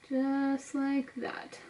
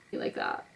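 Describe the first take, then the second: First: Slow, soft, absorbed; drawn out under the breath; slow drawn-out murmur. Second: Breathy whisper to herself; soft whispered aside. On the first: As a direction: stretch it out slowly and softly. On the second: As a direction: whisper it to yourself. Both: Real, not acted. Absorbed mumbling while applying makeup.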